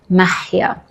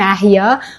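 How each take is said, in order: First: The h sound in the name is harsh. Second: The h sound in the name is soft. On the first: This is the Arabic pronunciation. "but in Arabic it's mahia" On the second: This is the Persian pronunciation. "my name sounds so cute in Persian"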